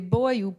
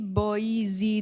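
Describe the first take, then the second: First: The word is spoken as one syllable. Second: The word is spoken as two syllables. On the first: "it's one syllable again to meet the number of syllables" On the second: "boy, you, has two syllables"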